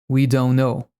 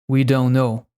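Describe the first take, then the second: No difference in how they are said.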